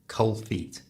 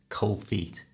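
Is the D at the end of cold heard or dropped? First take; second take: dropped; dropped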